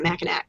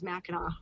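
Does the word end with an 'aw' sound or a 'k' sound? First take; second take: k; aw. First: The final c is sounded, ending in k. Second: The final c is silent, ending in aw. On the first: The speaker calls it wrong. "It's not Mackinac" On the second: The speaker calls it right. "it's always Mackinac, however it's spelled"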